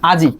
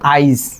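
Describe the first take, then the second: First: The i sound comes after the j. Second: The i sound comes before the j. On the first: "জি এর পরে আসছে হচ্ছে ইয়ের উচ্চারণ আজি" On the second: "জয়ের আগে চলে আসছে ইয়ের উচ্চারণ"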